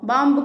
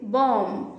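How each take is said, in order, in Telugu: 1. చివరి b sound పలుకుతారు. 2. చివరి b సౌండ్ పలకదు. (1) "బాంబు కాదు" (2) "బ సౌండ్ అసలు రాదు"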